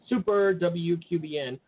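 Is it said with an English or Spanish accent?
English. It is said with a plain English accent.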